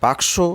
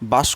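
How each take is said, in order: First: The k sound comes before the s sound. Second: The s sound comes before the k sound. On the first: "বাক্স শব্দটিকে" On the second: "সটা আগে চলে আসছে এবং কটা পরে চলে যাচ্ছে"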